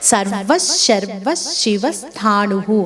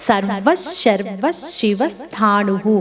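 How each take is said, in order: First: Names run together with the next consonant doubled. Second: Names run together with the next consonant doubled.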